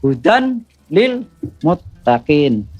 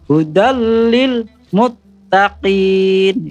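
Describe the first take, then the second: First: The n is pronounced separately before l. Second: The n merges into a doubled l sound. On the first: The speaker calls it wrong. "Jangan ... Salah gitu kan" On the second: The speaker calls it right.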